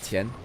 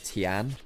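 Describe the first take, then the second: First: The name is said closer to Mandarin pronunciation. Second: The name is said in an anglicized way. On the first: The speaker calls it right. "it's Tien" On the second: The speaker calls it wrong. "it's not um, Tian"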